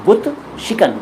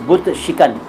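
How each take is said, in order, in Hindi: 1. दूसरा शब्द shikan की तरह बोला जाता है। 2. दूसरा शब्द shikan की तरह बोला जाता है।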